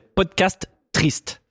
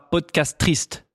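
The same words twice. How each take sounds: First: Both T sounds are pronounced separately. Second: The two T sounds merge into one word. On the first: The speaker calls it right. "c'est podcast triste" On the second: The speaker calls it wrong. "C'est pas podcast triste"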